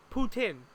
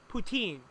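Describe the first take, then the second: First: Poutine with a plain short i at the end; accurate pronunciation. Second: Poutine with a raised ee at the end; wrong pronunciation. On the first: Teaching the accurate poutine, no French accent. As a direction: say poutine as poo-tin. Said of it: "pronounce it accurately without the French accent". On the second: Showing the wrong poutine to avoid. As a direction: poutine said poo-teen. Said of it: "not poutine". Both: Shown as a demonstration.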